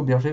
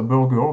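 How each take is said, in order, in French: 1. Le nom est prononcé à la française. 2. Le nom est prononcé à l'américaine. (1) "nous, on dit plutôt Berger dans le coin" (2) "Aux États-Unis, ils appellent ça Burger"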